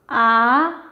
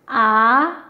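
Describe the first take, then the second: First: The pitch rises from middle to high. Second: The same.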